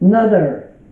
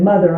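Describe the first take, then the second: First: The word starts with an N sound instead. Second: The word starts with a normal M sound. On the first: "you kind of do it like an N" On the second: "if I said mother"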